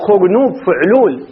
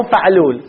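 First: فعلول with u in the first syllable, fuʕlul, slowly; right vowel. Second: فعلول with a in the first syllable, faʕlul; wrong vowel. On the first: Teacher to students giving the correct pattern, slow and deliberate. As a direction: say فعلول as fu-ʕlul, first letter with damma. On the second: Teacher to students rejecting the wrong pattern, faʕlul. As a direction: say فعلول as fa-ʕlul, fatha on the first letter. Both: Shown as a demonstration. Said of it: "مو فعلول".

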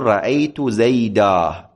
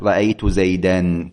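First: رأيت زيدا ending on a long a, slowly; correct pause. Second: رأيت زيدا said with nunation, zeidan, as the wrong form; common mistake. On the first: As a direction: stop on زيدا with the alif, no nunation. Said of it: "ولا تقول". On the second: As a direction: end زيدا in an n sound to show the error. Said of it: "لكنه خطأ". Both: Shown as a demonstration.

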